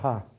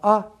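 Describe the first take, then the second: First: The vowel starts with an audible h sound. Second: The vowel starts without an h sound. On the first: "А это густое придыхание, «га»" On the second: "Это просто «а»"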